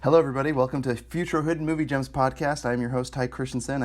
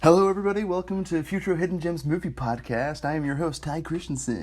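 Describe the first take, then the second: First: It is said in a plain professional voice. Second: It is said in a put-on podcast voice.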